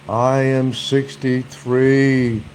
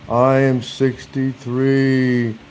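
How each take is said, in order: The two takes are said the same way.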